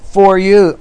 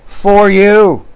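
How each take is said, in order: First: "For you" with the weight moved onto "you"; stress on you. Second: "For you" raised and lingered on, the stress falling on "For". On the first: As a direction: hit "you" straight at the congregation. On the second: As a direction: lean into "For you" as a pointed quote. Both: Shown as a demonstration. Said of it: "You hear that?".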